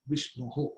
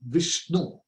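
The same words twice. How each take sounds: First: Vishnuhu with the final -hu echoed softly after Vishnu; Sanskrit ending. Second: Said in the usual way. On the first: Shown as a demonstration. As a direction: end Vishnuhu on a breathy hu. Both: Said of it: "It's called Vishnuhu".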